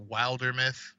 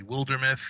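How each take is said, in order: First: Wildermyth said with "Wild" like "wild animal"; long-i pronunciation. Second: Wildermyth said with "Wild" like "willed"; short-i pronunciation. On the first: Cohost weighing how people pronounce the game's name, long-i pronunciation. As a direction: say Wildermyth with a long i, as WILE-der-myth. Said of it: "heard people pronounce it". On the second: Cohost giving the other way to say the game's name, short-i pronunciation. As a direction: say Wildermyth with a short i, as WILL-der-myth. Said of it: "The other way would be". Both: Shown as a demonstration.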